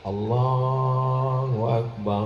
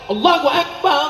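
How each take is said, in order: First: It is said gently and quietly. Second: It is called out loudly and forcefully. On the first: It is whispered to a newborn baby. "Kalau untuk bayi; Azannya jangan kuat begitu. Bayinya kaget" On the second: It is a call for the prayer. "Kalau untuk sholat"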